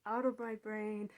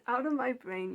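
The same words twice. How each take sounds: First: "Out of my brain" said firm, at normal pitch; calm but firm order; firm dismissal. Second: "Out of my brain" shouted louder and higher; emphatic yelled command; loud banishment. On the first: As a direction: push them out, steady and clear. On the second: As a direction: throw them out with force. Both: Retold or imitated. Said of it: "I just say".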